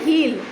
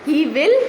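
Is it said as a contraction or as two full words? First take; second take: contraction; full words. First: It is said as one contracted syllable. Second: It is said as two separate full words. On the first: "બોલાય he'll" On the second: "ઇટ ઇઝ actually separate"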